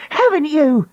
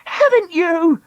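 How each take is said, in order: First: High, jabbing cry. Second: Higher, harsher cry; crying out louder. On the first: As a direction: jab the question. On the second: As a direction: push it harder. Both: Acted. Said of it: "she cried".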